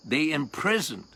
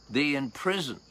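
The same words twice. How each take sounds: The two takes are said the same way.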